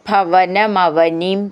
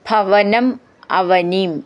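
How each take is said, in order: First: The two words run together as one. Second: The two words are said separately.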